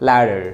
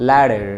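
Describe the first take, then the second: The two takes are said the same way.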